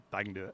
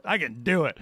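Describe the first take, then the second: First: Softer, to himself; muttered self-encouragement; quiet self-talk. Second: Said in the usual way. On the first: Real, not acted. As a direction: reassure yourself under your breath.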